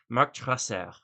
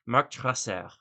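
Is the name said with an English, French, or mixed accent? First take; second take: French; French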